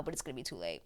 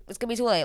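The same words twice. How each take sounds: First: Low, soft aside trailing away; sinking under the breath; hushed dread. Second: "too late" pushed higher at full voice; higher, insistent "too late"; urgent repeat. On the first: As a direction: drop it low and very quiet. Dreads outcome, then repeats it. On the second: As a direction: raise "too late" in alarm. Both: Retold or imitated.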